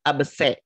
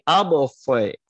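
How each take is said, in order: First: The s is a plain, light s sound. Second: The s is a heavy, emphatic s sound. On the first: The speaker calls it wrong. "Jangan kita ganti menjadi sin. Bukan abse" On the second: The speaker calls it right. "Tapi abelse"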